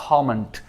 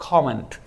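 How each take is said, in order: Both takes have the same delivery.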